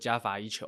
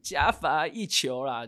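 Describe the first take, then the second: First: It is said flatly, without energy. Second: It is said with lively energy.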